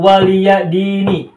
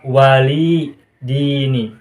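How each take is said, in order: First: An extra 'ya' syllable follows 'wali'. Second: No 'ya' syllable follows 'wali'. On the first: "Lakum dinukum waliya dini" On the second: "kata waliya ini juga bisa dibaca wali dini"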